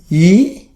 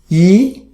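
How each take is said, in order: First: It is said with the second tone. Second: The same.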